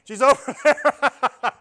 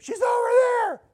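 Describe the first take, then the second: First: Normal voice, loud. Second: Very high, much louder shout; a shrill, strained yell across the river; retold yell. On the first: Shown as a demonstration. Showing the congregation the loud shout in his normal voice. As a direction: bellow it in your own voice, drawn out. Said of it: "Speaking in my normal voice really loudly". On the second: Yelling to everybody in the raft, a high shout. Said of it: "And I yelled at everybody".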